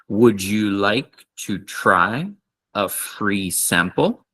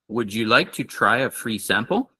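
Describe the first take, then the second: First: The sentence is said at a slower pace. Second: The sentence is said at a faster pace.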